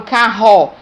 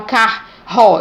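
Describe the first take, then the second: First: CARRO with one strong breathy-h R sound, "ca-ho"; correct RR in CARRO. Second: CARRO split as "car-ro", the syllables apart; wrong R in CARRO. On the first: Teacher showing the single sound re, correctly pronounced CARRO. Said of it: "eu falo carro". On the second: Teacher showing pupils how carro is not said, mispronounced CARRO. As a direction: say CARRO as the wrong reading, broken after "car". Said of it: "eu não falo carro". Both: Shown as a demonstration.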